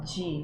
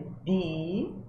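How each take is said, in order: First: The letter is said the Portuguese way. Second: The letter is said the Italian way. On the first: The speaker calls it wrong. "a gente não fala D" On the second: The speaker calls it right. "É D"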